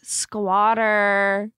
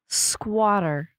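First: It is said in an LA accent. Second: It is said in a plain accent.

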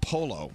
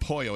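First: The double L is sounded as an L. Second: The double L is sounded like a Y. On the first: The speaker calls it right. "In Italian, two L's, you pronounce the L's" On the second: The speaker calls it wrong. "Pollo is not pollo"

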